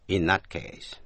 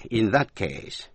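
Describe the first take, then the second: First: "In that case" run together quickly; fast linked reading. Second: Said in the usual way. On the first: Shown as a demonstration. Teacher giving students the fast version second. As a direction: rush "In that case" into one linked phrase. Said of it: "thứ hai là đọc nhanh". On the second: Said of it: "thứ nhất là đọc rõ".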